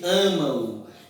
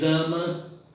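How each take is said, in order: First: The word ends with a nasal 'oo' glide. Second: The word ends without a nasal 'oo' glide. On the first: The speaker calls it right. "você diz amam. ... o M tem o som de U" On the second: The speaker calls it wrong. "Você não diz ama"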